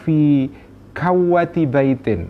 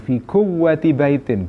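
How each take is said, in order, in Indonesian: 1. Kata tengah memiliki vokal 'a' setelah k. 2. Kata tengah memiliki vokal 'u' setelah k. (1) "bisa dibaca kawwah" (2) "bisa dibaca kuwah"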